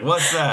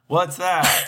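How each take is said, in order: First: Very high, thin Jayla squeak. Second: High squeaky Jayla impression; Jayla's puzzled question, way up high. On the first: Retold or imitated. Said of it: "I'm doing Jayla now". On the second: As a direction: pitch way up for Jayla. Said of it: "That's a good Jayla voice".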